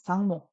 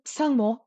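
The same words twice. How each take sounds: First: Said in the usual way. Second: Sangmo begun with a P, as "psangmo"; sounded prefix on Sangmo. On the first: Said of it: "it's going to be". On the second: Shown as a demonstration. Teacher rules out the form, Sangmo with a prefix P. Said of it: "it's not going to be".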